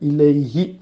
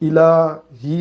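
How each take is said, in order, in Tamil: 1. நடுவில் உள்ள உயிரெழுத்து 'ay' சறுக்கல். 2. நடுவில் உள்ள உயிரெழுத்து நீண்ட, சாதாரண 'aa'. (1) "இலைஹி அப்படி மாறுது" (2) "இலாஹி என்று சொல்லாம"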